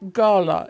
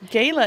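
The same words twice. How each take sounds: First: It uses the pronunciation common in British English. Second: It uses the pronunciation common in American English. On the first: "often used in British English" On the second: "very common in American English"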